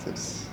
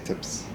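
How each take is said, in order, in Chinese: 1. 辅音发音轻柔而且弱。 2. 辅音发音轻柔而且弱。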